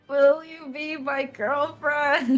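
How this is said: It is said with emotion.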